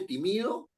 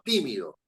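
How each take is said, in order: First: The stress falls on a later syllable. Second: The stress falls on the first syllable. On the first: The speaker calls it wrong. "Uno no dice timido" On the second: The speaker calls it right. "sino tímido. Es esdrújula"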